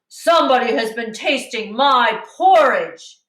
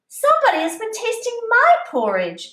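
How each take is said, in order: First: It is said in a big, deep voice. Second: It is said in a middle-sized, medium voice.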